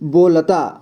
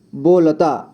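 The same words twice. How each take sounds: First: The middle l sound is fully pronounced. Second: The middle l sound is fully pronounced.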